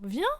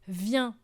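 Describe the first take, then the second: First: It is said with a rising, questioning tune. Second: It is said as a firm statement.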